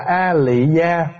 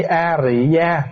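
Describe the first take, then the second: First: Slow, careful "A Lị Gia" with a clear L sound in "Lị". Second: Slow "A Rị Gia" with a clear R sound in "Rị". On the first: Monk shows the congregation the northern reading, slow and careful. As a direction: spell out "A Lị Gia" slowly, stressing the L of "Lị". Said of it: "mình đọc là A Lị Gia đúng". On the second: Monk shows the reading closer to Sanskrit, slow and careful. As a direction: say "A Rị Gia" slowly, leaning on the R of "Rị". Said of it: "hay mình đọc A Rị Gia đúng". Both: Shown as a demonstration.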